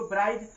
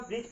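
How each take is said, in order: First: ब्राइज read with the d spoken; d sounded. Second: ब्रिज with the d left silent. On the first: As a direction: give ब्राइज the wrong spelled-out reading. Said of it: "अगर डी silent नहीं होता". (डी बोलकर ब्राइज पढ़ना) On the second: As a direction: say ब्रिज and drop the d. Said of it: "लेकिन यहाँ पे हम ब्रिज पढ़ेंगे". (डी को मौन रखकर ब्रिज बोलना) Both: Shown as a demonstration.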